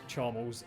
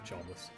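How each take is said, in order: First: The name ends in a short 'les' sound. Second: The name ends like the word 'less'. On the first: The neutral form of the name. "Neutral one is Charmles" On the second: The form used by people who dislike him. "the people that don't like him"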